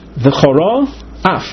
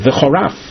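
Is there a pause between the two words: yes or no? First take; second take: yes; no. First: A pause separates the two words. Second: The two words run together as one.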